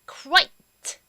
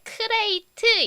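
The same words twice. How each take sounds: First: The k glides straight into r. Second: A full vowel follows the k sound. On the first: The speaker calls it right. "크 발음이 있을 듯 말 듯 살짝 지나가면서 으까지 잘 안 들리면서" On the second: The speaker calls it wrong. "crate 이렇게 하지 마시고요"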